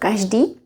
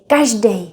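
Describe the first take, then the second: First: The word ends in a long 'ee' sound. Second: The word ends in an 'ej' sound. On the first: It is the standard form. "instead of každý" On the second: It is casual everyday speech. "we like to say každý ... We tend to use the ej ending. That's in common speech"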